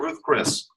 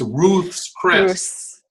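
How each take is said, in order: First: Ruth is said without a final s sound. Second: Ruth is said with a final s sound. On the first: The speaker calls it wrong. "nobody pronounces it, pronounces it correctly" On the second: The speaker calls it right. "It's Ruth's Chris"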